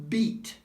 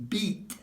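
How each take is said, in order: No difference in how they are said.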